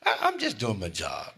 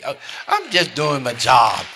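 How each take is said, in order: First: Said in the usual way. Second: Louder, pressed-out insistence on "job"; emphatic repeat. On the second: Acted. Preacher insisting to congregation, louder and emphatic. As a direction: drive "I'm just doing my job" home, louder.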